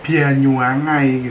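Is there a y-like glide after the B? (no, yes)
yes. The B is heavy with a y-glide; ends ai.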